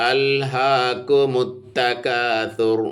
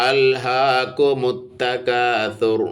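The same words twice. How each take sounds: No difference in how they are said.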